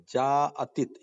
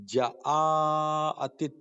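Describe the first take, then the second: First: جاءتت as one joined jaa, then attit; correct joined reading. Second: جاءتت as short ja, separate drawn-out aa, attit; split wrong reading. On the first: Shown as a demonstration. Teacher models the right reading, joined jaa in جاءتت. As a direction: join jeem and alif into one long jaa in جاءتت. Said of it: "یہ صحیح ہے". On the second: Retold or imitated. Teacher shows the wrong reading, ja split from aa in جاءتت. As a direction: break after ja in جاءتت, then hold the aa. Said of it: "یہ غلط ہے".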